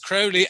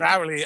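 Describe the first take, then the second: First: The first vowel sounds like 'oh' in holy. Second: The first vowel sounds like 'ow' in Fowley. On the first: The speaker calls it right. "It's Crowley as in holy" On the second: The speaker calls it wrong. "not Crowley as in Fowley"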